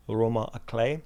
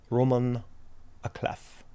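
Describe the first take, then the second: First: "roman à clef" ending like "clay", f silent; suggested French pronunciation. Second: "roman à clef" with the last word like "cleff", f sounded; sounded final f. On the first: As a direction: say "roman à clef" the French way, last word rhyming with "day". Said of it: "the internet suggests I should pronounce". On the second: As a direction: read "roman à clef" as spelt, ending on an audible f. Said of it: "I should pronounce as". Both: Shown as a demonstration.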